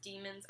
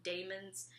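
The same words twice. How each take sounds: First: "demons" with a long E, DEE-muhnz; supposed correct pronunciation. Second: "daemons" with a long A, DAY-muhnz; own habitual pronunciation. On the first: Guessing the book's pronunciation, "demons" said DEE-muhnz. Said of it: "I'm pretty sure it's pronounced". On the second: Admitting what she always called it, "daemons" said DAY-muhnz. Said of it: "I always called it". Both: Shown as a demonstration.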